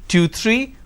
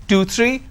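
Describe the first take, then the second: The two takes are said the same way.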